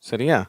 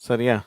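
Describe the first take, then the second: Both takes have the same delivery.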